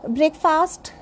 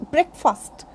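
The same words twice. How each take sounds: First: Breakfast as BRAKE-faast, full second vowel; common mispronunciation. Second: Breakfast as BREK-fust, short vowels; correct pronunciation. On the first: Teacher showing what people generally say, BRAKE-faast. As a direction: say breakfast like two full words. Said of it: "this is not breakfast". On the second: Teacher correcting breakfast for learners, BREK-fust. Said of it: "This is breakfast". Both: Shown as a demonstration.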